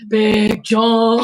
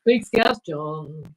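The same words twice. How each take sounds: First: Loud, booming call of the name. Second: Drawn out, savouring each word; slow relish. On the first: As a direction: announce him like a ring name. Calling out the name. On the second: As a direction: stretch it out like a grand title. Savouring the name. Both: Pretend.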